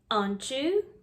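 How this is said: The R is dropped, leaving a long vowel. "how British people say these sounds"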